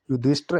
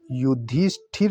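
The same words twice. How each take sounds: First: युधिष्ठिर as "yudisht-ar"; wrong pronunciation. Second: युधिष्ठिर ending in aspirated "thir"; correct pronunciation. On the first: Teacher showing the error, युधिष्ठिर as "yudishtar". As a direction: drop the i after th in युधिष्ठिर. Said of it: "ऐसे नहीं लिखा जाता". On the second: Teacher correcting the name, युधिष्ठिर with clear thir. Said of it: "लिखा जाता है". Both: Shown as a demonstration.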